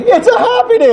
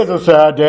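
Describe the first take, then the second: First: Very high, squeaky mock cheer; happy. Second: Mock-sad, dropped back down from a squeal. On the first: Priest juggling wedding and funeral, forced happy. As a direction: overdo the joy way up high. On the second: Priest juggling wedding and funeral, briefly sad.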